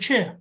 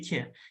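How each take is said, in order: First: The word begins with a ch sound. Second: The word begins with a k sound. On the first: This is how most people actually say it. "you say Che" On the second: This matches how the word is written. "You don't say Ke"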